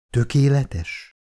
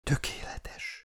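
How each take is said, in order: First: "Tökéletes" slowly voiced as an echoed question. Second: Slow, very soft whisper. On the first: Narrator puzzled by her word, asks "Tökéletes" back slowly. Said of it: "kérdeztem vissza". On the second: Frail patient whispering into her carrier's arm, whisper. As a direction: whisper it slowly, almost without voice. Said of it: "suttogta a felkarom izmaiba". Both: A narrator's reading.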